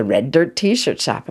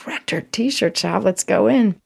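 First: Said in the usual way. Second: Higher, drawn-out excitement; light up at spotting the shop; delighted discovery. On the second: Retold or imitated.

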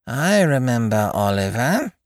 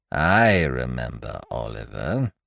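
First: Put-on slow, judging old woman; stern old aunt. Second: Put-on much lower, slow old woman; slow, heavy elderly recollection; old lady. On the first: Old aunt coldly recalling the guest as a boy. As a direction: say it like passing sentence. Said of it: "said Exhibit B". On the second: Ancient mother slowly recalling the guest as a boy. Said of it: "said Exhibit A". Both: A narrator's reading.

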